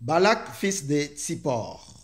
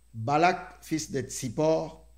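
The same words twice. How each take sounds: The two takes are said the same way.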